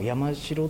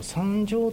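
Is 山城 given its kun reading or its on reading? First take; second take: kun reading; on reading. First: The word is given its native kun reading. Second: The word is given its Sino-Japanese on reading. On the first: This reading conveys the meaning more clearly. "意味としては山城という言い方の方が意味は通じる" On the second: This is the customary name in archaeology. "考古学の世界では山城という言い方で一応呼ぶ"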